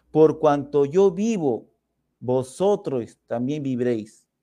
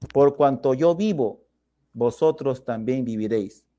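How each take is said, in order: No difference in how they are said.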